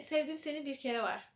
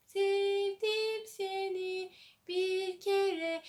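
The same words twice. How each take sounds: First: Said in the usual way. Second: Slow, drawn-out crooning of the title; sung, stretch every syllable like a soap theme; sung theme song. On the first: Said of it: "O tarzda dizilerden biri olan". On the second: Retold or imitated. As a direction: sing it like a TV drama's opening song. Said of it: "Öyle de müziği var".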